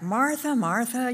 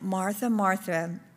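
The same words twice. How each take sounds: First: The name is said in a stern tone. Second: The name is said in a gentle tone. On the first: It is a rebuke to her. "he said it more sternly, like" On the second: It is a caring call to her. "it says that he said"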